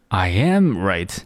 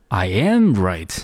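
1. 重音在 "am" 这个词上。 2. 重音在 "am" 这个词上。

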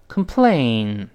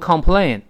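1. 第一个音节有一个弱化的元音。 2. 第一个音节有一个完整的 'o' 元音。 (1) "读一下抱怨这个词complain" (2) "所以不要读complain，不是这么读的"

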